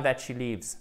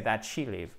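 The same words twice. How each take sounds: First: Wrong form with the s, that she lives. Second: That she live with no final s; correct subjunctive. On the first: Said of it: "C'est pas". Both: Shown as a demonstration.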